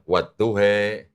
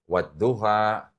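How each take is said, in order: First: The word ends with an 'e' vowel. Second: The word ends with an open 'a' vowel. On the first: "ada yang wadduhe" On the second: "ada lagi yang mau baca wadduha"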